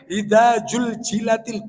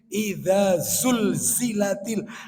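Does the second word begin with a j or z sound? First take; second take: j; z. First: The second word begins with a j sound. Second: The second word begins with a z sound. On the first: The speaker calls it wrong. "Ini bukan jim ini" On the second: The speaker calls it right. "bukan zulzilatil ini"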